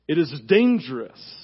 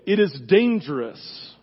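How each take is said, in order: First: Weight shifted onto "dangerous", falling; stress on DANGEROUS. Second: Slow, with weight on "is"; stress on IS. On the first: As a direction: punch "dangerous" after a pause. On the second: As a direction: lean hard on "is" and let dangerous fall. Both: Shown as a demonstration.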